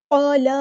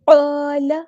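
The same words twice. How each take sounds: First: قَالَ with a drawn-out لام, meaning changes; wrong recitation. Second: قَالَ with a heavy ق and long alif; correct recitation. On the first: Teacher shows the mistaken قَالَ with a long lam. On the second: Teacher models correct قَالَ, heavy and long. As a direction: say قَالَ with a thick ق, alif held one count. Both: Shown as a demonstration. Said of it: "قَالَ نہیں ہے".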